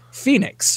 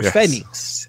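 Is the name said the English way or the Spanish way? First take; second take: English; Spanish. First: The name is said with English pronunciation. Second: The name is said with Spanish pronunciation.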